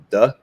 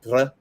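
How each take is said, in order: First: The d sound is plain, without breath. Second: The d sound is made with a tongue flick. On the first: "you have duh" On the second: "one with a little R flick"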